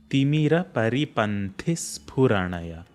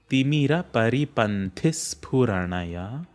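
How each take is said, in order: Both takes have the same delivery.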